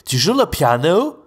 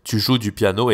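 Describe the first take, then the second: First: Tu joues le piano sung high and slow with big rise; mock anglophone accent in French; anglophone melody. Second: Tu joues du piano with only a small rise at the end; level native French melody; calm monotone question; flat French intonation. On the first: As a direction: exaggerate the English lilt on le piano. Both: Shown as a demonstration. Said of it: "Vous voyez la différence entre".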